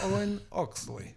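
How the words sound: It is said in a put-on Dutch accent.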